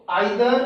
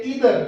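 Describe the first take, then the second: First: आइदर said with the vowel of eye, EYE-dher; either as eye-ther. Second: इधर said with a long ee, EE-dher; either as ee-ther. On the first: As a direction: open the first syllable as आइ, आइदर. (आइदर को 'आइ' की आवाज़ से बोलें) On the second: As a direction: start इधर with a plain long ई sound. (इधर को लंबी 'ई' की आवाज़ से बोलें) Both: Shown as a demonstration. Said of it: "आप दोनों ही साउंड यूज़ कर सकते हो".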